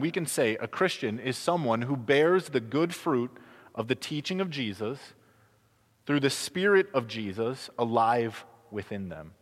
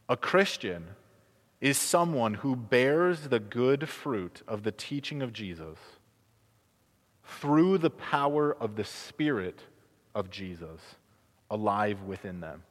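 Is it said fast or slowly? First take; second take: fast; slowly. First: It is said fast. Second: It is said slowly.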